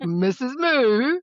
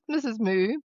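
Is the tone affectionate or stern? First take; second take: stern; affectionate. First: It is said in a stern, warning tone. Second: It is said in a warm, affectionate tone. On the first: The dog is about to misbehave. "another nickname I call her when she's in trouble, but I think it's also the tone I use" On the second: The dog is loved. "Missus Moo could also be very affectionate"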